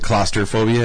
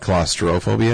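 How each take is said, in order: First: The middle sounds like 'clauster', with an er sound. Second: The middle sounds like 'claustro', with an ro sound. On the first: This is how most people commonly say it. The speaker calls it wrong. "we all say claustrophobia" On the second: This matches how the word is actually spelled. The speaker calls it right. "it's actually claustrophobia"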